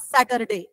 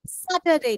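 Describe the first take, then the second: First: Saturday wrongly said with "er"; Saturday with R sounded. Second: Saturday correctly said, R dropped; Saturday without R. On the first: Teacher shows pupils what not to say, R sounded in Saturday. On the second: Teacher models the day for pupils, no R in Saturday. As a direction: leave out the R in Saturday. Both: Shown as a demonstration. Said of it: "Er day is not pronounced".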